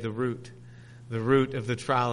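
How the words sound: Route is pronounced the Canadian way. "We're Canadians, we say the root of the trial"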